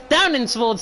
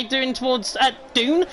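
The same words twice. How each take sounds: First: Said in the usual way. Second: Down said as "Dune" in a northern accent; northern vowel, "Dune" with a long oo; northern English accent. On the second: Real, not acted. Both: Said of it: "that's my northern accent coming out".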